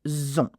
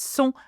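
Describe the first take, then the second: First: The word begins with a z sound. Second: The word begins with an s sound. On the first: The speaker calls it wrong. "and not zon" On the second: The speaker calls it right. "it's going to be a S sound too"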